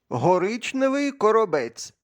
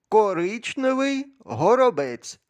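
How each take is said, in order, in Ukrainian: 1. Перше слово починається на H, друге на K. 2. Перше слово починається на K, друге на H. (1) "Я помилився?" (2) "Як правильно?"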